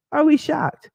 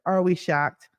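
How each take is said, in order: First: Mock shock, pitched much higher. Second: Said in the usual way. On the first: Vlogger teasing viewers about the bank, mock shocked. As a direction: play up fake surprise at the bank.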